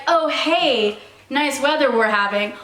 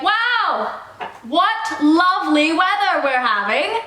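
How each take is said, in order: First: Said in the usual way. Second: Theatrical musing aloud to the air; announcing to the air. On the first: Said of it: "you don't have to turn around". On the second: Shown as a demonstration. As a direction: exclaim it grandly to nobody in particular. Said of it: "just loudly speak to the air".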